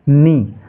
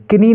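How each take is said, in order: First: "नी" starting on n; corrected "नी", one syllable; silent K. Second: "किनी" with a k syllable in front, higher; faulty "किनी", ki-NEE; wrongly voiced K. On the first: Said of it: "इसको नी पढ़ेंगे". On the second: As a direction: sound the K in "किनी" as a mistake. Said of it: "किनी नहीं". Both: Shown as a demonstration.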